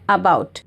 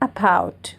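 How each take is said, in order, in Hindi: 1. पहला स्वर पूरा और साफ़ बोला जाता है। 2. पहला स्वर एक कमज़ोर, बिना स्ट्रेस वाला श्वा है। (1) "हम लोग क्लियरली बोलते हैं अबाउट" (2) "actually it should be pronounced as अबाउट"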